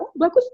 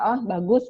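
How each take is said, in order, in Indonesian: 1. Pujian itu terdengar hangat dan antusias. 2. Pujian itu terdengar datar dan acuh. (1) "benar-benar dengan ekspresi kita, dengan gesturnya kita" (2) "jangan sambil sambil mata kemana, muka kemana, cuma oh bagus gitu ya"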